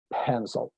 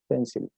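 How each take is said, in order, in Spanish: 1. Se pronuncia con sonidos ingleses. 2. Se pronuncia con sonidos españoles. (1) "la pronunciación en inglés es pencil" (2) "Tal cual lo leerían en español"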